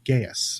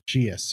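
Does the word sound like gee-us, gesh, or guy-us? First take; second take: guy-us; gee-us. First: It is two syllables, sounding like guy-us. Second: It is two syllables, sounding like gee-us. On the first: "what most people call Gaius" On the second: "or Geus, or I've heard it mispronounced"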